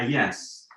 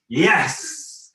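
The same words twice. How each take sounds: First: It is said softly, openly and with little force. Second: It is said with full, energetic, forward force. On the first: Openly accepting things as they are. "Or kind of, ah, yes. I just kind of open to wherever the hell I am" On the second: Eagerly reaching forward into life. "a very active yes, like, yes, kind of orgasmic, full-blown, whole-bodied one"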